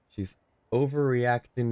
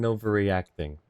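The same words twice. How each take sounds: First: Laughing. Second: Said in the usual way. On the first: Real, not acted. Laughing at a repeated game line.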